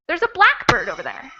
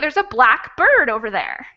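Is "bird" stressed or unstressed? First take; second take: unstressed; stressed. First: Only black is stressed; bird is unstressed. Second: Both black and bird carry strong stress. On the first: It is the kind of bird called a blackbird. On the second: "Both of those syllables would be stressed because they're two different words"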